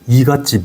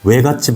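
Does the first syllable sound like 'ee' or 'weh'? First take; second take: ee; weh. First: The first syllable has a plain 'ee' vowel. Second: The first syllable has a rounded 'weh' vowel. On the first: The speaker calls it wrong. "외갓집이 안 되더라고요" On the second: The speaker calls it right. "외갓집 한번 해봐"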